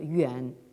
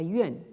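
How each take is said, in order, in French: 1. Le mot se prononce au troisième ton. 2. Le mot se prononce avec un ton autre que le troisième. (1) "on le prononce au troisième ton" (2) "et non pas yuan, hein, comme ici"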